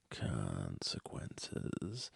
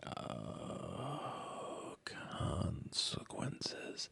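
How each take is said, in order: First: "consequences" dragged out very slowly, far lower, rising at the end; ominous consequences. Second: Whispered dread. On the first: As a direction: intone "consequences" like a deep, slow doom voice. Fearing a fight, dread. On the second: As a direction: breathe out "consequences" as a slow, hushed warning. Imagining what will happen. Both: Pretend.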